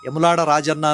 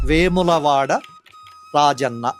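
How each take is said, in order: First: A shortened form is said, starting with 'ye'. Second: The full form is said, starting with 've'. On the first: This is how people say it in everyday use. "వాడుకలో ఏముంది? యములాడ రాజన్న అని అంటున్నాం" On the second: This is the official written form. "వేములవాడ Rajanna అని ఉంది"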